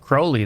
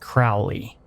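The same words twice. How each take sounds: First: The name rhymes with 'holy'. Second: The name does not rhyme with 'holy'. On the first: "Does rhyme with Crowley, though" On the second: "holy doesn't rhyme with Crowley"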